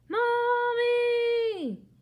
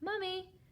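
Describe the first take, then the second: First: It is yelled as loud as possible. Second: It is said a little louder.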